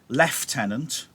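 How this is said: It is said with a British pronunciation. "I think I'll say it the British way"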